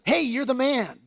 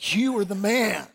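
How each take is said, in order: First: It sounds like casual friendly praise. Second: It sounds like a grave accusation.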